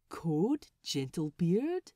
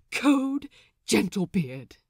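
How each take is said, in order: First: Gentle question. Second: Bursting out loud with the news; explosive announcement. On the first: The Swede politely asking Lucius, gentle question. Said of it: "he questions gently". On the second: Lucius bursting into the galley, explosive shout. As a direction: blurt it out like it can't be held. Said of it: "the words explode out of him". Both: Acted.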